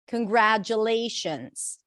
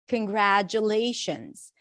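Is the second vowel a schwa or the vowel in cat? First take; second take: cat vowel; cat vowel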